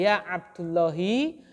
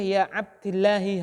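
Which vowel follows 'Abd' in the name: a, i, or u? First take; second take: u; i. First: The vowel after 'Abd' is u. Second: The vowel after 'Abd' is i. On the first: "Tidak boleh" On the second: "tidak boleh"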